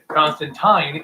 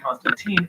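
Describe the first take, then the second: First: The name is said the original, non-American way. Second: The name is said the American way. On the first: This is the character's actual name. The speaker calls it right. "Constantine is his actual name" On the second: This form spread in America and the adaptations. The speaker calls it wrong. "in America, it was mispronounced to be Constantine"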